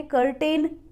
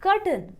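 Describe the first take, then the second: First: कर्टेन with a full "tain" second syllable; कर्टेन, long ए in the last syllable; mistaken pronunciation. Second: कर्टन with a short unstressed second syllable, "KUR-tn"; कर्टन, weak vowel in the last syllable; correct pronunciation. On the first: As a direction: say कर्टेन as spelled, "kur-TAYN" vowel at the end. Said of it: "गलत थी जो मैंने कर्टेन सीखी थी". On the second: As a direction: say कर्टन with no "tain" at the end. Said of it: "वो pronunciation गलत थी". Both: Shown as a demonstration.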